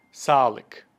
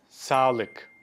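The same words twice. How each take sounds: The two takes are said the same way.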